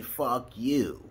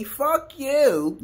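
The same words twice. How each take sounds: First: Said in the usual way. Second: "Fuck you" shouted high and loud; "Fuck you" yelled much higher and louder; angry fuck you. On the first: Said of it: "which way I'm saying". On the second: Shown as a demonstration. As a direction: bark "Fuck you" as a real insult. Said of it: "you don't know how, which way I'm saying".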